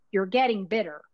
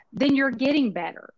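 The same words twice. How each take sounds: First: 'bitter' with a clear short i, set apart from better; corrected pronunciation. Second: 'better' said with an open e, the word she meant as bitter; Texas accent slip. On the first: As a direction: fix it: 'bitter' with a tight short i. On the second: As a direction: say 'better' loud, with a Texas e sound. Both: Real, not acted. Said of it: "My Texas accent got in the way there".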